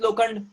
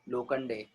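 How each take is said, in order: First: The name ends without a final vowel sound. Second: The name ends with a clear final 'e' vowel. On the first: An English reader drops the final e. The speaker calls it wrong. "वापस से silent करो mister अंकित लोखंड" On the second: This is the name as its owner says it. The speaker calls it right. "लोखंड बिगड़ना है लोखंडे"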